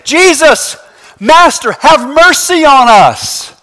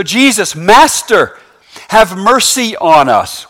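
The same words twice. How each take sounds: First: High, stretched-out plea; raised voices. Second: Said in the usual way. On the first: Acted. Lepers calling to Jesus from afar, raised voices. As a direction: call out for mercy across a distance. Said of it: "They raise their voices saying".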